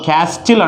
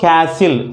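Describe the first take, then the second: First: The word is said with a T sound. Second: The word is said with no T sound. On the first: The speaker calls it wrong. "క్యాస్టిల్ అంటలా మనం" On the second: The speaker calls it right. "ఎప్పుడు క్యాసిల్"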